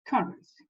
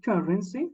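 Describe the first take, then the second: First: "Currency" with the first syllable stressed, CUR-rency; teacher models the stress of "Currency", on the first syllable. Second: "Currency" repeated after the dictionary audio, stress on the first syllable; teacher echoes "Currency" as she heard it, first syllable stressed; repeating the dictionary audio. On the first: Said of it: "where is the stress?". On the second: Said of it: "You also can listen here". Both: Shown as a demonstration.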